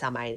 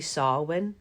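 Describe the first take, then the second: First: The word is said the way its letters suggest. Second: The word is said unlike its letters suggest. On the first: The speaker calls it wrong. "I always thought it was pronounced Samhain, and it's not" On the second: The speaker calls it right. "it's actually Samhain"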